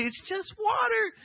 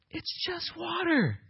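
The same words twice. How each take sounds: First: High, shouted, insisting it's nothing; John insisting to the crowd it is only water, a high shout; emphatic shout. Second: High, soft and slow, shrugging it off; John playing down his own work, high and soft; humble aside. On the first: Retold or imitated. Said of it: "bringing himself back down again to say". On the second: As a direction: let it go lightly, almost a sigh. John downplays his baptism.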